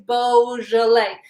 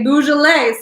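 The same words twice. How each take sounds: First: Beaujolais with a clear, long "boh"; correct pronunciation. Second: Beaujolais with "boo" as its first syllable; ignorant pronunciation. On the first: Host needs everyone to learn it, careful Beaujolais with "boh". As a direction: teach Beaujolais as boh-zhuh-lay, syllable by syllable. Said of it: "everyone to learn to say". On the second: Host warns against sounding ignorant, Beaujolais mispronounced with "boo". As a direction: say Beaujolais wrongly, as boo-zhuh-lay. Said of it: "sounding ignorant when you say". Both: Shown as a demonstration.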